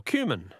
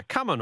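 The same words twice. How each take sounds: First: "cumin" said as KYOO-min; pronunciation variant. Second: "cumin" said as KUM-in; pronunciation variant. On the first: Host offers both ways to say the answer, "cumin" as KYOO-min. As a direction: say "cumin" with a long YOO in the first syllable. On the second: Host offers both ways to say the answer, "cumin" as KUM-in. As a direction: say "cumin" with a short first vowel, KUM-in. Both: Shown as a demonstration. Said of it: "I've never known how you pronounce it".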